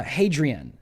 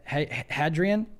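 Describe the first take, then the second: First: Hadrian with a long A, "HAY-dree-an"; unsure first try at Hadrian as "HAY-drian"; first-guess pronunciation. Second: Hadrian with a short A, "HAD-ree-an"; questioning second try at Hadrian as "HAD-rian"; corrected pronunciation. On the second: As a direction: stumble into Hadrian, starting like "had". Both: Real, not acted. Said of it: "I think I said that right".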